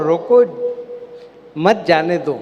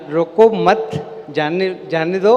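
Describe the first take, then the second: First: Loud "रोको", long break, then "मत जाने दो"; pause after रोको. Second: "रोको मत" run together loudly, then a short break; group "रोको मत" as one command, pause, then "जाने दो"; pause after मत. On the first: Speaker shows how a moved comma flips the meaning, pause after रोको. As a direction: stop firmly on "रोको", then run "मत जाने दो" together. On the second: Speaker shows how a comma changes the meaning, pause after मत. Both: Shown as a demonstration. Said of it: "एक वाक्य में अगर कॉमा बदल जाए".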